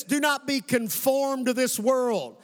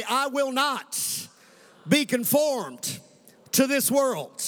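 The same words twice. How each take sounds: First: "not" leaned on, slow and falling; stress on NOT. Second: "be conformed" drawn out very slowly; slow call and response. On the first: Preacher quoting scripture to the church, weighty stress on "not". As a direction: preach it, hitting "not" hard. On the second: Preacher leading the congregation in saying it aloud, slow and deliberate. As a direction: lead the church word by word. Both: Shown as a demonstration. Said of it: "let's say this out loud".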